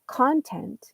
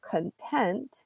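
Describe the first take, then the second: First: The stress is on the first syllable. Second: The stress is on the second syllable. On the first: Material such as stories or articles. "if you highlight the first syllable" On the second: Being satisfied with the situation. "put the highlight on the second syllable"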